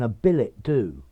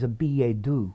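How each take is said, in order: First: It is pronounced with an anglicized pronunciation. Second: It is pronounced with a French pronunciation. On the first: "you may find many people saying" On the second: "your best bet is"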